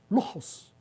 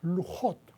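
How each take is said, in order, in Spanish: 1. La palabra termina en sonido s. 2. La palabra termina en sonido t. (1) "los askenazis ... no pronuncian la T, sino que dicen lujos, con S" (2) "se dicen lujot"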